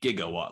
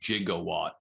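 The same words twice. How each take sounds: First: The word begins with a hard g sound. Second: The word begins with a soft j sound. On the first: This is the correct scientific term. The speaker calls it right. "it would be a gigawatt, like a gigabyte" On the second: This is how the film says it. The speaker calls it wrong. "they call it a gigawatt"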